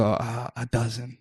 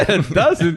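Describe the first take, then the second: First: Said in the usual way. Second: "A dozen?" higher and louder with a laugh; mocking laugh at "dozen"; laughing disbelief. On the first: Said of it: "I go". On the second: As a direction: scoff at the tiny order in an Israeli voice.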